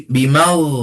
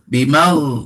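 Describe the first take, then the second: Both takes have the same delivery.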